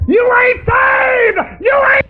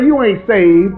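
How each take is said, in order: First: High, slow, crying shout; preaching shout. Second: Said in the usual way. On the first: Real, not acted. Preacher shouting at the congregation that they ain't saved, high and crying. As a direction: wail it out at the top of the voice.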